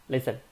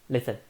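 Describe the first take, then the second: Both takes have the same delivery.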